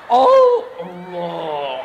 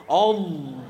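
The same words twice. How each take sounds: First: Loud, hugely drawn-out mock takbir; disruptive takbir. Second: Low-pitched takbir, mock-solemn; disruptive takbir. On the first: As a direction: stretch it out low and loud, mocking a showy worshipper. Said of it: "nak ganggu memang maki". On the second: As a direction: intone the takbir low, imitating a worshipper. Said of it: "Mulai takbir, nak ganggu".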